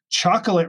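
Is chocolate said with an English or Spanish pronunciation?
English. It is said with an English pronunciation. The speaker calls it wrong. "you are all saying chocolate wrong"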